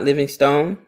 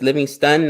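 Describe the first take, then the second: First: The last syllable is a full 'stone' sound. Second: The last syllable is a short, reduced 'stun'. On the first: The speaker calls it wrong. "not Living Stone" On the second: The speaker calls it right. "So it's Living Stun"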